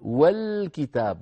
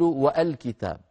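First: The article joins straight on without a glottal stop. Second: A glottal stop is pronounced before the article. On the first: The speaker calls it right. "في وسط الكلام تسقط، أقول والكتاب" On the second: The speaker calls it wrong. "ولا أقول والكتاب"

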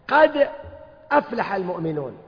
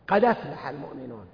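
First: The glottal stop is pronounced after a silent d. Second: The glottal stop is dropped; d takes its vowel.

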